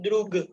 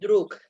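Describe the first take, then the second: First: The word ends with a voiced G sound. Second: The word ends with a voiceless K sound. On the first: The speaker calls it wrong. "tapi kita bacanya bukan drug" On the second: The speaker calls it right. "Tapi bacanya druk"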